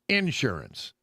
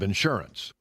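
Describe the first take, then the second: First: The stress is on the first syllable. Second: The stress is not on the first syllable. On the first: This is how Texans say it. "They tend to to put emphasis on the first syllable" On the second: This is the standard way to say it. "instead of"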